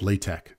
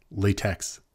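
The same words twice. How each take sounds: First: "LaTeX" said lay-tek, ending in a k; correct name pronunciation. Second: "latex" with a sounded x at the end; read as spelled. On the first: Teaching viewers what it's actually called, pronounced lay-tek. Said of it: "we actually do call it". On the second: Explaining to viewers how the name looks, read as spelled. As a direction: say "latex" like the rubber, ending in ks. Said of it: "seems to be like it's latex". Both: Shown as a demonstration.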